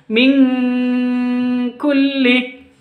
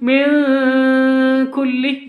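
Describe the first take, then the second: First: The n becomes a nasal ng before k. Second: The n is plain, with no added ng. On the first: The speaker calls it right. "tapi yang betul itu min kulli" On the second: The speaker calls it wrong. "bukan cara bacanya bukan min kulli"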